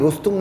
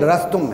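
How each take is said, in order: First: The first syllable has a 'u' vowel. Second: The first syllable has an 'a' vowel. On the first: The speaker calls it wrong. "ये रुस्तुम नहीं; इस पर बिज़म्म रा पढ़ना गलत है" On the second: The speaker calls it right. "रस्तुम है। बाकायदा वहां कहा गया बिफतह रा"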